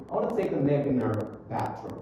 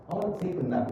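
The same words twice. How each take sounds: First: "nap in her" run together within the sentence; linked words. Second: "nap" ending on a closed, popped P; popped final P. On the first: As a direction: glide from "nap" straight into "in her". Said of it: "Jadi, disambung". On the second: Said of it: "Jadi, letupin". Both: Shown as a demonstration.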